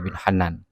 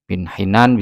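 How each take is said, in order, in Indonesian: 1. Huruf vokal pertama nama itu diucapkan a. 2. Huruf vokal pertama nama itu diucapkan i. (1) "bisa juga dibaca bin Hanan" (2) "bisa dibaca bin Hinan"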